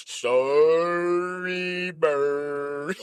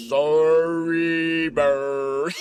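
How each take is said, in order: First: Very deep, sung-out apology; Snuffy voice. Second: Very deep, slow, drawn-out apology; Snuffy voice. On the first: Snuffy apologizing to Big Bird, deep and sung. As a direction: croon it low and long. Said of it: "Snuffy like". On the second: Snuffy apologizing to Big Bird, very deep and slow. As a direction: sink way down and stretch it out. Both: Pretend.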